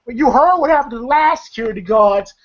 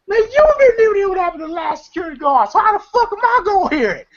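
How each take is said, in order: First: Lightly acted warning, slightly raised pitch; cautioning retelling. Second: Very high, rapid indignant squawk; Day Day. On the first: Craig warning Day Day about the guards, mildly cautioning. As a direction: imitate a friend urging caution. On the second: Retold or imitated. Guard snapping back at Craig's warning, high mock indignation. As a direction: imitate a worked-up guard firing back. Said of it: "I like how Day Day goes".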